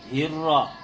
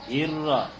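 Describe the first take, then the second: No difference in how they are said.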